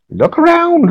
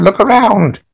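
First: Very high crone call; very old woman. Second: Put-on very old woman. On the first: Acted. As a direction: sing it out like a hag. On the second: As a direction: settle back down, still hag-like. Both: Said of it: "very old woman".

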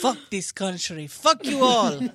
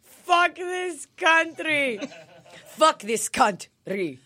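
First: Mock raging dad. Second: Slow, laughing echo of the curse; laughing mock rant. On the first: Voicing Igor raging. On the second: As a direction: drag it out while cracking up. Echoing Igor's rant, laughing.

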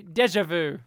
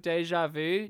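First: "deja vu" misread as dezh-uh-voo, louder; deliberate mispronunciation. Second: "deja vu" said French-style, day-zhah voo; correct French pronunciation. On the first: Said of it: "it's like pronouncing it instead". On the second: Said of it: "it's like pronouncing it instead of deja vu". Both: Shown as a demonstration.

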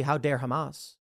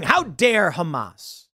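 First: Said in the usual way. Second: Slow, mock-indignant quote of the right; mock indignation. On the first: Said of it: "Well, I agree". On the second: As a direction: drag out "How dare Hamas?" like an offended pundit. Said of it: "The right saying".

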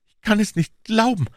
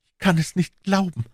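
First: Much higher and louder, rising despair; the grief breaks through; anguished moan. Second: Much higher, groaning disbelief; a moan of grief. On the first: (verzweifelt stöhnend, viel höher) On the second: (stöhnend, viel höher) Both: A narrator's reading. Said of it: "stöhnte er".

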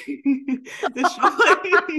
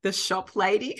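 First: Cracking up through the words, much higher and slow; can barely get it out for laughing; giggling, drawn-out repeat. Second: Said in the usual way. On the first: Real, not acted. Laughing at the memory.

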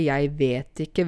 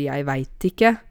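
First: Said in the usual way. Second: "vet" broadened to "veit"; broad diphthong in "vet", like "veit ikke"; breiere dialekt. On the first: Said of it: "vi sier jo ikke". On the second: Shown as a demonstration. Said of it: "litt sånn breiere". («vet» uttalt breitt som «veit»)

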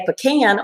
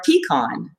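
First: Pecan said puh-CAN, blending both parents' ways; pecan pronounced "puh-CAN"; compromise puh-CAN. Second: Pecan said PEE-kahn, blending both parents' ways; pecan pronounced "PEE-kahn"; compromise PEE-kahn. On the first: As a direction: say pecan with a short first syllable and "can" stressed. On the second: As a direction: say pecan with a long "ee" and an "ah" ending. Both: Retold or imitated. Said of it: "I found the compromise between the two".

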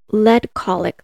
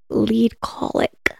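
First: Skeptical repeat. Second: "lead colic" very slowly, LEAD said "leed"; deliberate quote. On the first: Real, not acted. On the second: Retold or imitated. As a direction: draw out "lead colic" as a dubious quoted term. Slow emphatic quote of defense claim.

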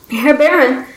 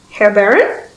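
First: "Herr Baron," called into the dark with a falling end; calling out. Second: "Herr Baron?" as a rising, uncertain question; asking. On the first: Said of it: "Guillemot called again". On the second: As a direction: ask "Herr Baron?" with the pitch lifting at the end. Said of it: "he asked back". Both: A narrator's reading.

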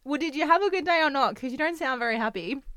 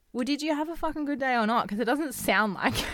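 First: Higher, louder, accusing; frustrated girlfriend. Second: Higher, faster exasperated demand; annoyed partner challenging her boyfriend's short reply; frustrated girlfriend. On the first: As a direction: needle him for sounding unhappy. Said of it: "I do it all the time. It's like". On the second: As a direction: push him, fed up with his short answer. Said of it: "the girls get frustrated too. It's like". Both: Retold or imitated.

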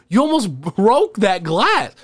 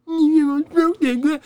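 First: Higher, slow scolding line. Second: Very high, squeaky mock parroting; mocking echo. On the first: Retold or imitated. Warning a drunk friend about the bottle, slow scolding. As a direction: scold him, dragging the words out. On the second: Drunk friend mimicking her scolding in a squeaky high voice.

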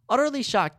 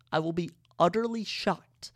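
First: "Utterly" punched higher and louder; "Utterly shocked" thrown out high and loud in disbelief; emphatic repeat. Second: Said in the usual way. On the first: Real, not acted. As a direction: hit "Utterly" hard, then land "shocked".

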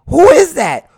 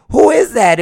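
First: High, loud shocked question; shocked crowd. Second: Quieter, less shocked echo of "Who is that?"; softer repeat. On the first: Crowd seeing the body in the casket, shocked shout. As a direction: hit "is" high and loud in disbelief. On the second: Crowd repeating the question, milder surprised echo. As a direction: say it again, already calming down. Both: Retold or imitated. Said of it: "everybody is like".

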